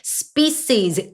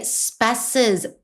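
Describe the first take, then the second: First: The first vowel sounds like 'ee'. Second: The first vowel sounds like 'eh'. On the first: The speaker calls it right. "이 소리가 난다는 거" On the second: The speaker calls it wrong. "폐 소리가 나는 게 아니고"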